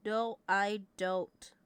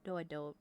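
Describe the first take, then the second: First: Slow, drawn-out emphatic denial. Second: Said in the usual way. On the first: Shown as a demonstration. Streamer insisting to chat, slow drawn-out denial. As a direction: drag each word out to insist.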